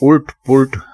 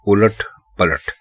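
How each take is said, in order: First: Both words are clipped, with u vowels throughout. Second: Both words have a full a vowel inside. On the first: The speaker calls it wrong. "उल्ट पुल्ट बिल्कुल गलत है।" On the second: The speaker calls it right. "दुरुस्त लफ्ज है उलट पलट।"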